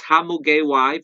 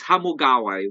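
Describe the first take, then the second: First: Hamugeway said the foreign way, middle syllable as "gay"; foreigner pronunciation. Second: Hamugaway said the Filipino way, middle syllable as "ga"; Filipino pronunciation. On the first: Host showing foreign friends how they say the resort name, Hamugeway as "ha-mu-gay-way". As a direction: say Hamugeway like a visitor would, "ha-mu-gay-way". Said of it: "for foreigner friends". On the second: Host showing how Filipinos say the resort name, Hamugaway as "ha-mu-ga-way". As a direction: say Hamugaway like a local, "ha-mu-ga-way". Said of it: "For us Filipinos".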